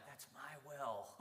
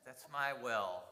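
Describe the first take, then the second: First: Slow inner thought. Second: Said in the usual way. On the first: Retold or imitated. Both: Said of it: "In my mind, I'm like".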